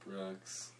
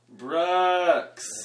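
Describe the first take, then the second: First: It is said very quietly. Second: It is said very loudly.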